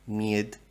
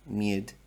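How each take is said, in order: No difference in how they are said.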